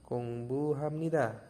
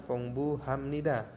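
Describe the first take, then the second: Both takes have the same delivery.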